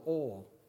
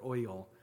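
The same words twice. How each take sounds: First: The word is said as one syllable. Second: The word is drawn out into two syllables. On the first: The speaker calls it right. "Single syllable" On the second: The speaker calls it wrong. "Not oil"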